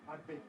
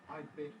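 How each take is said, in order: No difference in how they are said.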